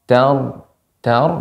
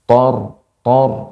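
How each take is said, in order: First: The syllable is said light, with a clear vowel. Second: The syllable is said heavy, with a darkened vowel. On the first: The speaker calls it right. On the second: The speaker calls it wrong.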